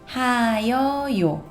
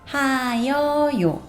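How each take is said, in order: First: The ending is spoken as three separate syllables. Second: The same.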